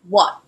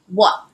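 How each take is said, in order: Both takes have the same delivery.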